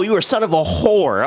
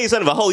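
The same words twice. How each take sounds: First: "whore" said fully as whore; right version, whore. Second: "hoe" said as a short slang hoe, not "whore"; mock the misquote as "hoe"; wrong version, hoe. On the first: Retold or imitated. Correcting the lyric, pronounced "whore". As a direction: stress "whore" and say it out in full. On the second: The line he didn't say, with "hoe". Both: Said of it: "He didn't say".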